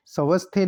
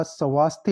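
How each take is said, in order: First: स्वस्थे with short a after v; wrong pronunciation. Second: स्वास्थ्य with long aa after v; correct pronunciation. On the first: Teacher showing students the wrong form, स्वस्थे with short a. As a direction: say स्वस्थे as "sa-vas-the", short middle vowel. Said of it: "नहीं होता". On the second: Teacher correcting the word, स्वास्थ्य with long aa. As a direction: say स्वास्थ्य as "sa-vaas-thye". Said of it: "होता है". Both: Shown as a demonstration.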